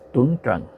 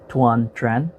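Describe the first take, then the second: First: The name is said with a Vietnamese pronunciation. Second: The name is said with an American pronunciation. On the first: "the Vietnamese pronunciation is" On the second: "pronounce it in the American way"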